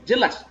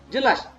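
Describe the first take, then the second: The two takes are said the same way.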